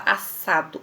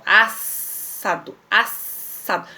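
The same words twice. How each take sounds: First: Said in the usual way. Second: "assado" split slowly as "as-sado"; slow "assado", each S pronounced separately; both S's sounded. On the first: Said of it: "você pronuncia". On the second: Shown as a demonstration. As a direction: hold a long hiss between "as" and "sado" in "assado". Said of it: "eu pronuncio os dois S's".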